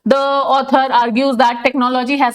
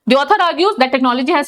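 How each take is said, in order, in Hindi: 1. इसे धीरे-धीरे, एक-एक शब्द करके पढ़ा जाता है। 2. इसे एक जुड़े हुए वाक्यांश की तरह सहजता से पढ़ा जाता है।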